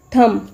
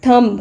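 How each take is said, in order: First: "thumb" as THUM; silent B. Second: "thumb" ending in an audible B; sounded B. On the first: Teacher correcting the common mistake, silent B. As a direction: end "thumb" on the M. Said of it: "बी की sound". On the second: Teacher showing learners what not to say, B sounded. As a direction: say "thumb" as THUM-B. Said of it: "It's not thumb". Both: Shown as a demonstration.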